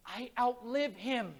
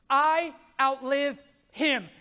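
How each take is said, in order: First: Soft and slow, I outlive him said low and soft; hushed slow vow; quiet first take. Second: Louder and slow, stress on "I" in "I outlive him"; slow ringing declaration with "I" hit hard; emphatic repeat. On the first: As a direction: let "I outlive him" sink in quietly and slowly. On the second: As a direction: hammer the word "I" in "I outlive him", drawn out. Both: Shown as a demonstration.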